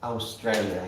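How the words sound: It is said in a European way.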